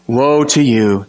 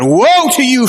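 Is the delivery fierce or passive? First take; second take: passive; fierce. First: It is said mildly, without force or heat. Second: It is said fiercely, with fire and force. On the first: The speaker calls it wrong. "This is not Jesus very passively saying" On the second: The speaker calls it right. "He is fire in his voice"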